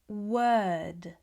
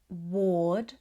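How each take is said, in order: First: The vowel is an 'er' sound. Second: The vowel is an 'or' sound. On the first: The speaker calls it right. "It's more of an er sound. We would say" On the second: The speaker calls it wrong. "These words are not pronounced with an or sound. It's not ward"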